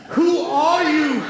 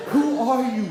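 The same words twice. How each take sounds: First: Who are you said slowly and louder, out loud; bewildered, slow, loud demand. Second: Said in the usual way. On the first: Retold or imitated. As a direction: blurt it out at the stranger in bed. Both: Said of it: "then you say it out loud".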